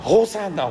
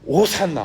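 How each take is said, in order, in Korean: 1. 처음이 분명한 'h' 소리예요. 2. 처음이 숨이 섞인 'o' 소리예요. 'h'가 아니에요. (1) "좀 아쉽게 호로 이게 발음을 하는 것인데" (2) "호 발음이 아니에요. 이게 오 발음을 바람을 강하게 이렇게 내뱉어서"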